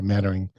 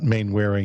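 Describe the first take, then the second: First: The first syllable sounds like 'man'. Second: The first syllable sounds like 'main'. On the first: The speaker calls it right. "it's closer to Mannering" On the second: The speaker calls it wrong. "it's not Mainwaring"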